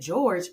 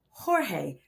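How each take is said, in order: First: It is said like the English name George. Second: It is said like the Spanish name Jorge. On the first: The speaker calls it wrong. "I know you said George" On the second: The speaker calls it right. "No, Jorge Sierra. Make sure that you say it right"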